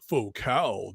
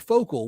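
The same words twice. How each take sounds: First: It is said with a pretentious French pronunciation. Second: It is said with a plain English pronunciation. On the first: Someone else corrects the speaker condescendingly. The speaker calls it right. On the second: The speaker does not know how the name is pronounced. The speaker calls it wrong.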